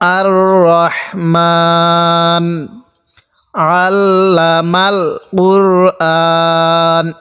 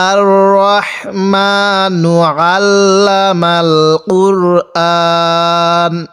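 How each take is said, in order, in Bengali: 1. এটি প্রথম শব্দের পরে থামে। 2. এটি থামা ছাড়াই মিলিয়ে পড়া হয়। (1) "আর যদি ওয়াকফ করি" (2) "যদি মিলিয়ে পড়তে চাই"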